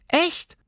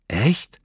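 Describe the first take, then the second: First: „Echt“ in extrem hohem Stimmchen; bestätige „Echt“ piepsend als Tierchen; bestätigendes Pelztierchen. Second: „Echt?“ mit steigender Frage; erstauntes Nachfragen. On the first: Tierchen bestätigt mit Figurenstimme. („Echt“ ganz hoch als Antwort) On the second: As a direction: frag „Echt?“ in normaler Kinderrolle, leicht angehoben. Lilli fragt erstaunt nach. („Echt?“ verwundert nach oben gezogen) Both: A narrator's reading.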